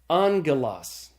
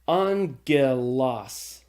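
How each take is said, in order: First: The word is said smoothly as one whole unit. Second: The word is broken into separate, distinct syllables. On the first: "And then I'm going to say it again" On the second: "the first time I'm going to say it, I'm going to really break the word into its syllables"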